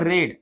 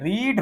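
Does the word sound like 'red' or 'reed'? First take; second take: red; reed. First: The vowel is a short e sound. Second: The vowel is a long ee sound. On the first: It is the past tense form. "रीडचं दुसरं रूप रेड. उच्चार बदलतोय" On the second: It is the present tense form. "रीडचं पहिलं रूप"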